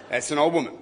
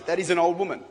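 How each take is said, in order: First: Put-on "old" punched, then a falling finish; "That's an old woman" hitting "old"; stress on old. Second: Put-on "an" leaned on, "old woman" falling away; "That is an old woman" with the weight on "an"; stress on an. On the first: Preacher repeating the joke to the crowd, stress on "old". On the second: Preacher joking to the crowd about her age, stress on "an". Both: Shown as a demonstration. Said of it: "Let's just be honest".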